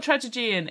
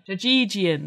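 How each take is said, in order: First: Trajagean as "tradge-a-JEE-an"; Trajagean, mangled version of tragedian; wrong pronunciation. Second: Trajagean as "tra-JEE-dee-an"; corrected pronunciation. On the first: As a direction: botch Trajagean with an extra syllable before "jee". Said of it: "No, it's not Trajagean". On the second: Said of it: "That's it". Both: Shown as a demonstration.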